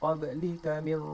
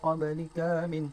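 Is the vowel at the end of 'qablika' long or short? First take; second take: short; long. First: The final vowel of qablika is kept short. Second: The final vowel of qablika is drawn out long. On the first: The speaker calls it right. "Kena baca" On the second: The speaker calls it wrong. "Tak perlu panjang-panjang. Tak perlu macam"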